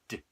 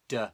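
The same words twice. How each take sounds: First: The sound is short and clipped, nothing added. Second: The sound is followed by an added vowel. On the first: The speaker calls it right. "So short, clean sounds" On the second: The speaker calls it wrong. "it's not the d"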